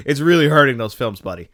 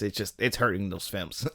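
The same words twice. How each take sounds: First: Really pushed up and loud, with a laugh; laughing emphasis on really. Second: Said in the usual way. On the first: Real, not acted. Laughing loud stress on really, scolding Kenneth Branagh's accents. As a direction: land the word really hard, half laughing.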